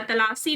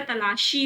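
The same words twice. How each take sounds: First: तलाशी with a plain s; wrong pronunciation. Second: तलाशी with a sh sound; correct pronunciation. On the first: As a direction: say तलाशी as ta-laa-see. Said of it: "तलाशी नहीं होता". (तलाशी को 'तलासी' जैसा) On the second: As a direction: say तलाशी as ta-laa-shee. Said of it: "तलाशी होता है". (तलाशी में 'श' की आवाज़) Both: Shown as a demonstration.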